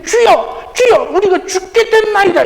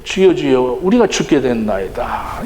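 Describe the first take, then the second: First: High-pitched, complaining outcry; resentful cry. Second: Low, restrained recital of the verse; subdued scripture reading. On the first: Acted. Disciples wake Jesus in the storm, resentful cry. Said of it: "어떤 불평, 원망, 이런 스럽게". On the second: A narrator's reading. Preacher reads the disciples' cry from scripture, subdued reading. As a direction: read it solemnly, low and even. Verse read out before the acted version.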